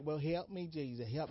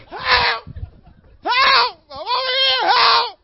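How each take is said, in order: First: Softer, composed polite request for help; mock calm plea. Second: Very high, loud desperate cries for help; frantic screaming. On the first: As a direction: ask politely, as if nothing's wrong. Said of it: "you just be like". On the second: Retold or imitated. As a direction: scream for your life. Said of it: "No, you".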